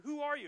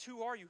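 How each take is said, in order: First: Higher, louder plea, repeated; desperate cry. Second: Said in the usual way. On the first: Acted. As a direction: call out the question with rising urgency. Moses repeating question, pleading.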